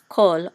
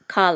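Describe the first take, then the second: First: The vowel is a short o sound. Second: The vowel is an ah sound. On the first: The speaker calls it right. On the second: The speaker calls it wrong. "never as kal or chal"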